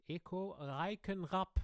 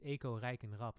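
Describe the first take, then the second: First: High, drawn-out German stage introduction; emphatic German MC with rolled r; German announcer. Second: "Eco Reichenrap" said matter-of-factly in Dutch; everyday Dutch reading of "Eco Reichenrap"; Dutch pronunciation. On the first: Retold or imitated. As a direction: announce the name in a showy German accent. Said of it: "in Germany". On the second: Shown as a demonstration. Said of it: "In Dutch, it's Eco Reichenrap".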